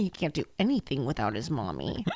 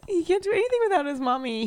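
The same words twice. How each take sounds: First: Low, softer mocking repeat; mock-solemn echo. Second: High-pitched mock-pitying mommy voice; playful baby talk. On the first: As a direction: drop the voice low and quieter. Repeats the mommy line much lower. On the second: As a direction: coo it high, like babying a dog. Plays along with mommy teasing.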